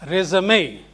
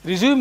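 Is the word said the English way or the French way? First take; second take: French; English. First: It is said as the French-style noun. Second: It is said as the plain English verb. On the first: A document listing academic details. "because this is a French word, uh, it is uh, pronounced as resume" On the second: To continue from where you left. "Resume is to continue from where you left"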